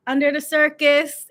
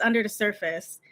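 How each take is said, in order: First: "circus" hit louder and higher; wrong lyric imitated. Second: Said in the usual way. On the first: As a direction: re-enact the slip, punching "circus". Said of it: "I sung the lyric wrong". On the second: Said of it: "and it's".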